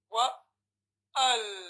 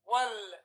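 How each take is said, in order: First: The alif vowel is pronounced separately before lam. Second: The alif vowel is skipped, linking straight to lam. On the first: The speaker calls it wrong. "Don't say" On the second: The speaker calls it right. "you'll go directly to the Lam. You will say, Wal"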